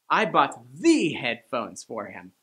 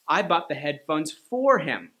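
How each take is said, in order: First: The stress falls on the word "the". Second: The stress falls on the word "him". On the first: They were the best headphones, not just any. "I bought the headphones, the best, not the not so good headphones" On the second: They were bought for him, not for myself. "In other words, I didn't buy the headphones for myself"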